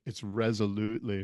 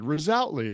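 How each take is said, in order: First: "resolutely" said right as REZ-o-lute-lee; correct pronunciation. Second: "Resolutely" said wrongly as rih-ZOL-ut-lee; mispronounced word. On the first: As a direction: correct "resolutely" with stress on the first syllable. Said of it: "she was just like". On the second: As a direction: stumble over "Resolutely", stress on the second syllable. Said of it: "I stumbled over the word". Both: Retold or imitated.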